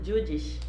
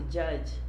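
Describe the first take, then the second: First: The word ends with an extra 'ish' syllable. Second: The word ends cleanly in a 'j' sound. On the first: The speaker calls it wrong. "Falou uma palavra bem estranha aí" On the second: The speaker calls it right. "uma palavra tão fácil"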